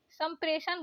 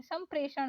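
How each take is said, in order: First: संप्रेषण ending in plain न; wrong dental N. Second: संप्रेषण ending in curled-tongue ण; correct retroflex ण. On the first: Teacher showing learners the mistake, dental-N संप्रेषण. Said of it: "गलत दिया है". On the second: Teacher correcting learners, retroflex संप्रेषण. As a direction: curl back for ण in संप्रेषण. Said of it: "होता है". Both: Shown as a demonstration.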